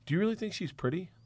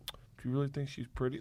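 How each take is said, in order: First: It sounds skeptical, doubting the woman's looks. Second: It sounds insecure and hurt, seeking reassurance.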